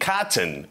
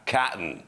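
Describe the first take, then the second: First: The t sound is clearly pronounced. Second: The t sound is swallowed in the throat.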